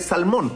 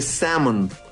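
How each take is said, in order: First: The word is said with an L sound. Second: The word is said without an L sound. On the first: "en inglés se escribe salmón, tal cual" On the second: "se pronuncia sin la L y con una A más extendida"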